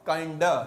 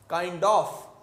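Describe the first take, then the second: First: The phrase ends with a reduced 'a' sound. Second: The phrase ends with a full 'of' sound.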